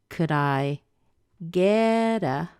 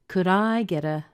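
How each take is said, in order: First: The word get carries the main stress. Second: The word I carries the main stress. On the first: "I'm stressing get" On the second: "There is a possibility to stress I"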